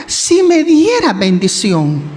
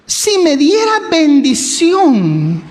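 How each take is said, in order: First: Slow, gentle "si me diera bendición"; humble plea. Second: Slow, tender plea "si me diera bendición"; pleading prayer. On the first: Jabes humbly asks God for blessing, slow and gentle. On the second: Jabes asks God for blessing, slow humble plea. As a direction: ask humbly, drawn out. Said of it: "a lo mejor llorando". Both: Retold or imitated.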